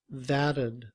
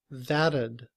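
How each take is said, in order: Both takes have the same delivery.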